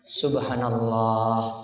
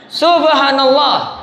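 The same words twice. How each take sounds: First: It is said quietly and softly. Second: It is shouted very loudly.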